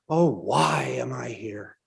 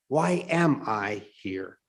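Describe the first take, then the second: First: It is said in a mournful, lamenting tone. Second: It is said in a thoughtful, self-examining tone.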